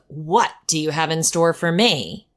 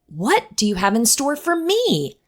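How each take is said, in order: First: The tone sounds weary and dreading. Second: The tone sounds eager and upbeat. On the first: The day is met with dread. The speaker calls it wrong. "Instead of" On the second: The day is welcomed with hope. The speaker calls it right. "why not approach each day by saying"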